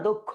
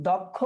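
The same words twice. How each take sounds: First: দক্ষ said "dok-kho"; closed first vowel. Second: দক্ষ said "dawk-kho"; open first vowel. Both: Shown as a demonstration. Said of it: "দক্ষ বলি না দক্ষ".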